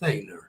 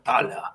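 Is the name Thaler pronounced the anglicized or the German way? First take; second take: anglicized; German. First: The name is pronounced the anglicized way. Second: The name is pronounced the German way. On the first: "pero le suelen llamar" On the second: "este es un nombre alemán"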